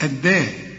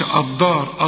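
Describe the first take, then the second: First: الداء with a thin, light d; light dal. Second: الدار with an emphatic, dhad-like d; heavy dark الدار; wrong heavy dal. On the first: Teacher gives the student the correct light d. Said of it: "تقول ايه". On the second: Teacher warns the student off a thick d. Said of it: "هنا ما تقولش الدار". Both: Shown as a demonstration.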